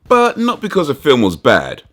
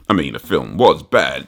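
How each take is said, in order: First: "But" hit high, rest falling; stress on but. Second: "was" stressed, lower dry admission. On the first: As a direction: push "But" up hard. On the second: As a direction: lean on "was" in a low dry aside. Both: Shown as a demonstration.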